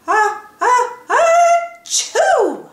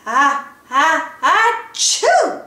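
First: Rising, shrieking high sneeze; big sneeze. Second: Rising, building sneeze; big sneeze. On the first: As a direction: build up and explode into a sneeze. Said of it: "made him sneeze". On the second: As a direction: wind up and sneeze hard. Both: A narrator's reading.

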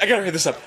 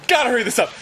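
First: Said in the usual way. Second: Higher, more urgent self-urging; comic rising panic while hurrying; mock panic. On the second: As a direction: hurry yourself along, pitched high. Growing panic on the john.

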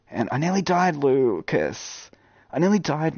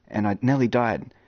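First: Higher, lively retelling of a close call; excited retelling. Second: Said in the usual way. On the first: Retold or imitated. Gamer telling viewer Lucas about a near-death escape, excited. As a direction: sell the near-death moment.

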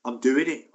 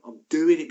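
First: Steady, firm "I'm doing it"; "doing" held firm, not yet raised; firm decision. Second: "I'm doing it" pushed louder and higher, "doing" punched; second "I'm doing it" climbs louder than the first; louder insistence. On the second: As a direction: hammer "doing" home. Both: Retold or imitated.

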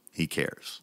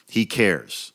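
First: "He cares" whispered, soft and low. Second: Said in the usual way. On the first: Shown as a demonstration. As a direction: breathe the words out like a secret.

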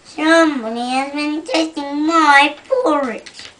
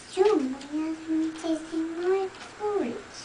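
First: Loud booming bear, lightly voiced; great big bear voice. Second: Middle-sized bear voice. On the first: Reading to a child, the great big bear complains loudly. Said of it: "said the great big bear in his great big voice". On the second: Acted. Reading to a child, the middle-sized bear complains mildly. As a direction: say it a bit higher, not booming. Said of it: "said the middle-sized bear in a middle-sized voice".

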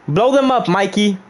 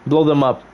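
First: High, emphatic order; insistent command. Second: Said in the usual way. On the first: Acted. Streamer orders Mikey to blow them up, high and insistent. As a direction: pitch it up and push the order. Repeats order with more force.

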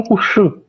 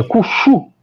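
First: "Cuxu" with an ordinary Portuguese sh; non-retroflex fricative. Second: "Cuxu" higher, with a retroflex sh; tongue tip back on the x of "Cuxu"; retroflex fricative. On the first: Linguist shows what it is not, ordinary sh in "Cuxu". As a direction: keep the x in "Cuxu" forward, no retroflexion. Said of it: "e não Cuxu". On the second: Linguist repeats the example, higher retroflex "Cuxu". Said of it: "é uma retroflexão na pronúncia dessa fricativa". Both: Shown as a demonstration.

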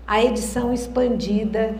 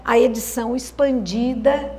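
The two takes are said the same way.

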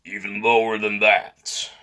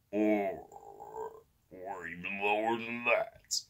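First: Forced low voice demo; even lower voice. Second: Soft raspy attempt at going lower. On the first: Vlogger trying to top their low voice, forced low. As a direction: push for a deep tone. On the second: Vlogger straining for the lowest voice, raspy. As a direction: rasp it out quietly, very low. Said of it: "like, raspier". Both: Shown as a demonstration.

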